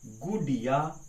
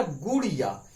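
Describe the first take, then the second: First: गुडिया with a plain retroflex d; गुडिया with ड, not ड़; wrong plain d. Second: गुड़िया with a quick flapped ड़. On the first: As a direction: say गुडिया with a hard ड. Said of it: "ये गलत होगा". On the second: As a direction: flick the tongue down in गुड़िया. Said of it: "लगा दीजिए बिंदी". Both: Shown as a demonstration.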